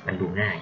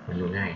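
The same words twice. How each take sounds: The two takes are said the same way.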